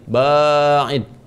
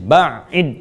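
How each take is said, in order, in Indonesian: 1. Vokal pertama dibaca panjang. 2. Konsonan tengah dibaca ganda. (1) "ba ada alifnya" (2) "Ada pakai tasydid"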